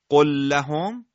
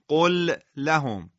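First: The two l sounds are merged into one. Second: The two l sounds are pronounced separately. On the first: The speaker calls it right. "ولی وقتی میگید قل لهم چقدر آسانتر قرائت میکنید" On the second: The speaker calls it wrong. "این رو بدون ادغام یک بار بخونید، میبینید چقدر مشکله"

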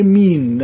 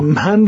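First: The word has a long 'ee' vowel. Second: The word has a short 'a' vowel. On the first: "از فتحه میاره به ای میرسونه" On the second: "من رو میگه مین"

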